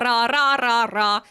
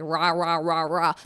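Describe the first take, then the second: First: The R is pronounced the Finnish way. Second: The R is pronounced the English way. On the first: "if it's Finnish, it's like" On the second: "in English, you're just like"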